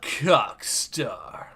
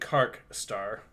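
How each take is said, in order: First: The first syllable sounds like 'cock'. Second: The first syllable sounds like 'kark'. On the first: "That sounds like the name for an adult film" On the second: "I pronounced it differently than Kark Star"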